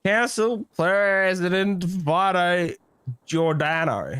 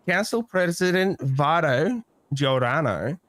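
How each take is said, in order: First: Slow, each word set down carefully; slow careful name. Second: Slow title, name said with flourish; slow name again. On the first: Recalling the council president's name at last, slowly. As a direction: spell the full title out slowly. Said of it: "That's it". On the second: Naming the council president for the viewers, slowly. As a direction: roll out Vito Giordano grandly. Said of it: "love the way you said his first name". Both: Shown as a demonstration.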